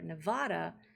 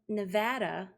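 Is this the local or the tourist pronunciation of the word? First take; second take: tourist; local. First: It is pronounced the way visitors tend to say it. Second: It is pronounced the way local residents say it. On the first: The speaker sounds like an outsider. The speaker calls it wrong. "the tourist pronunciation" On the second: The speaker sounds like someone from there. The speaker calls it right. "correct for the people who live there"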